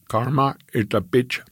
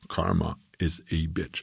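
First: It is said with a slight Indian accent. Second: It is said in the speaker's plain accent.

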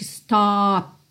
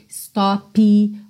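First: The final p is cut off with no vowel. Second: A vowel sound is added after the final p. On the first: The speaker calls it right. "Ela corta o som, realmente" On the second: The speaker calls it wrong. "não coloque uma vogal depois desses sons. Não diga"

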